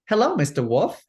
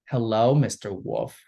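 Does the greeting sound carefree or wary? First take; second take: carefree; wary. First: The greeting sounds light and carefree. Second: The greeting sounds wary and put-upon. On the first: She greets him innocently and goes on her way. "a lot of times in the past, it's it's delivered as" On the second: She is tired of being pestered by men. "This actress delivered it as"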